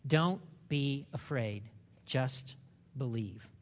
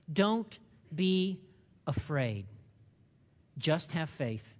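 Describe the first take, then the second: First: Slow tender reassurance. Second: Said in the usual way. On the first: Shown as a demonstration.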